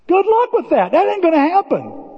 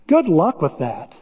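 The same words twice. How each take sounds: First: "Good luck with that" said high and mocking. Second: Said in the usual way. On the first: Shown as a demonstration. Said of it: "repeated much higher". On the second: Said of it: "said once, then repeated higher".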